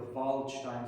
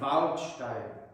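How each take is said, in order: First: The first vowel is a flat English a. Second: The first vowel is a bright open ah. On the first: The speaker calls it wrong. "I said I was practicing the Waldstein Sonata" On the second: The speaker calls it right. "Nein, Waldstein. taught me how to pronounce the bright ah in German"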